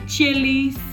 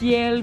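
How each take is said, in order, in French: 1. Le nom se termine par une voyelle 'ay' en plus. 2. Le nom se termine par le son 'l'.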